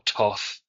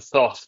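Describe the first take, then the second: First: The word begins with a plain 't' sound. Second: The word begins with a 'th' sound. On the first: "which is how you're supposed to pronounce it" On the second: "Thoth always sounds better to me"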